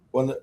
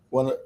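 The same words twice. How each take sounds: The two takes are said the same way.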